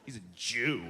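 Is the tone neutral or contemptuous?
contemptuous. It is said with a sneering, contemptuous tone.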